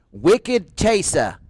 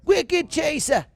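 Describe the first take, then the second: First: Slow, drawn-out Boston accent on "Wicked Chaser", r dropped as "Chasah". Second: Much higher, slow, hammed-up Boston "Wicked Chaser", r dropped as "Chasah"; exaggerated Boston accent. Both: Shown as a demonstration. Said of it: "the Boston accent".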